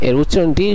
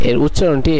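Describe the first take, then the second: Both takes have the same delivery.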